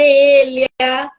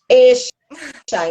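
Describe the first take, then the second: First: The double-L is not said like 'sh'. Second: The double-L is said like 'sh'. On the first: "Pode ser Elia" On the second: "o uruguaio fala como... como se fosse escrito com X"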